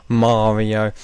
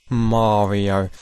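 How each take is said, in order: No difference in how they are said.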